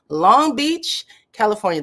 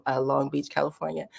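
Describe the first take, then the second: First: Long Beach called out high and loud, rising; Long Beach burst out loud and high, then California falls; excited shout-out. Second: Said in the usual way. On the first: Real, not acted. Spotting a viewer's city.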